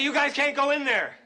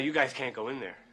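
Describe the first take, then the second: First: It is said at its loudest. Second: It is said at a quiet, normal volume.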